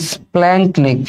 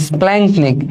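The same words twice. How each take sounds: The two takes are said the same way.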